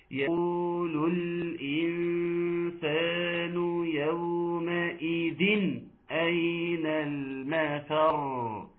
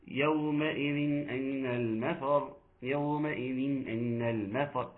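First: Very slow chant, a crisp clear n in "يومئذ أين"; sung, strong iẓhār recitation. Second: "يومئذ أين" slurred slowly together, the n left unclear; faulty recitation. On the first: Shown as a demonstration. Teacher shows students very strong iẓhār, slow chanted recitation. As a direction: chant it drawn out, separating "يومئذ" cleanly from "أين". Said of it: "اسمعوا مني كده وقولوا لي".

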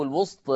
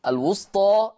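First: الوسط ending on a vowel tilted from aa toward e; taqlil ending. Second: الوسطى ending on a full open aa; open fath ending. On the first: Teacher demonstrating second reading, final vowel of الوسط in taqlil. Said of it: "أو بالتقليل". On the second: Teacher demonstrating two readings, الوسطى with open fath. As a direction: open the last vowel of الوسطى to aa. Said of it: "هكذا بالفتح". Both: Shown as a demonstration.

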